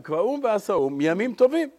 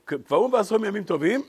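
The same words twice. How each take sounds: First: The final words are emphasized. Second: The final words are not emphasized. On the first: The holidays are the main thing established. "שומעים את ההבדל בקריאה של הגמרא" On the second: The holidays are not the main thing established. "בכוונה אמרתי את זה ככה"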